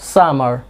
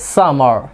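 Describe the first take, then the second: First: The final r sound is pronounced. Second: The final r sound is pronounced.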